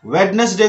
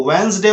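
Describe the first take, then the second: First: First वेडनेसडे as wed-nes-day; three-syllable वेडनेसडे; wrong pronunciation. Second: वेडनेसडे said as wens-day; d dropped, वेडनेसडे as wens-day; correct silent D. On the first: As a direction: say वेडनेसडे with the d sounded. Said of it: "को वेडनेसडे बोलना है". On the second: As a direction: say वेडनेसडे in two syllables, no first d. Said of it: "वेडनेसडे बोलना है". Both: Shown as a demonstration.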